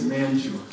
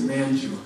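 First: The middle consonant is a j sound. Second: The middle consonant is a j sound.

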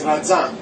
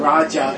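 First: The middle consonant sounds like a 'z'. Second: The middle consonant sounds like a 'j'. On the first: The speaker calls it right. "it's Raja" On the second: The speaker calls it wrong. "It's not Raja"

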